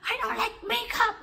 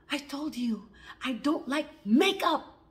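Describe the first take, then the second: First: Very high, loud shriek; high-pitched furious scream, acted; retold screaming. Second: Slow, loud, emphatic scolding; deliberate, forceful retold anger; mad mother. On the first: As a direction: re-enact an enraged mother screaming. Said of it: "She was screaming like". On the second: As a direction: re-enact an angry mother laying down the law. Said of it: "she was really mad".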